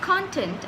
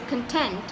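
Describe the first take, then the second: First: The stress is on the first syllable. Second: The stress is on the second syllable. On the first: Material inside a book. "I'm stressing on the first part of the word" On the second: Feeling satisfied. "this part of the word, which is tent"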